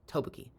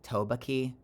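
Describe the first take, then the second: First: The stress is on the first syllable. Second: The stress is not on the first syllable. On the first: The speaker calls it right. "it's first syllable" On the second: The speaker calls it wrong. "my American mouth wants to say like"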